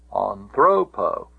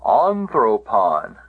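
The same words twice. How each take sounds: First: Slow anthropo with the middle syllable "thro" stressed; stress on penult. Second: Anthropon slowly, first syllable "An" stressed; stress on antepenult. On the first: Teacher repeating the dative for students, anthropo stressed on "thro". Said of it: "It cannot get back to the". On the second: Teacher showing the accusative case, Anthropon stressed on "An". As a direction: hit the opening "An" of Anthropon, then fall away. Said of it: "the accent can go back". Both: Shown as a demonstration.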